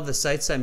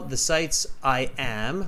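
First: "I am" is contracted to one syllable. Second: "I am" is said as two full words. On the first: The speaker calls it wrong. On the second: The speaker calls it right.

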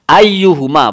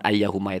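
First: The second syllable has a 'u' vowel. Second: The second syllable has an 'a' vowel. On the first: The speaker calls it right. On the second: The speaker calls it wrong.

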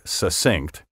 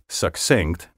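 First: No k sound follows the first vowel. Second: A k sound follows the first vowel. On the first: The speaker calls it wrong. "not succinct" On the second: The speaker calls it right. "please note that I said succinct"

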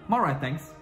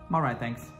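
Both takes have the same delivery.

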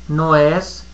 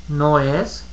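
No difference in how they are said.

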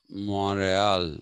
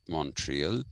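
First: It is said the way French speakers say it. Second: It is said in the speaker's own usual way.

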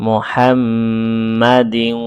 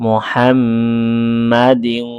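The two takes are said the same way.

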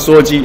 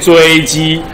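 First: The first syllable sounds like 'shuo'. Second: The first syllable sounds like 'zhui'. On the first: The speaker calls it wrong. "如果你要念错，就跟我一样念说说鸡" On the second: The speaker calls it right. "如果你要念正确，你就念追鸡"

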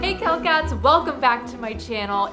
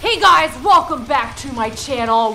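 First: It is said in a relaxed, low-energy way. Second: It is said in a peppy, high-energy way.

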